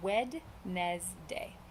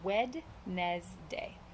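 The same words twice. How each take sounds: First: Every letter is sounded, including the middle d. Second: Every letter is sounded, including the middle d.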